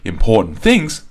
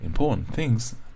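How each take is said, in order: First: The word 'things' gets heavy, unnatural stress. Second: The word 'things' is said lightly and naturally. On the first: The speaker calls it wrong. "No one's going to say important things" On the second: The speaker calls it right. "People will say important things, things, just treat it naturally"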